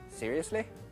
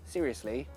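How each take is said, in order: First: The final vowel is a short ih sound. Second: The final vowel is a long ee sound.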